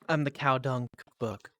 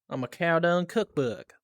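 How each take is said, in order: First: It is said in the speaker's ordinary accent. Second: It is said in a put-on southern accent.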